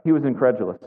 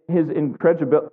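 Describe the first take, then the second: First: "incredulous" said cleanly and deliberately; a relieved, careful "incredulous"; corrected word. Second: "incredibil-" garbled and cut off mid-word; a fumbled, broken-off try at "incredibil-"; stumbled word. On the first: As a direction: land "incredulous" carefully, all four syllables. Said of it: "There we go". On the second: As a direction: trip over "incredibil-" and stop short. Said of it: "I'm not gonna get that word out". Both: Real, not acted.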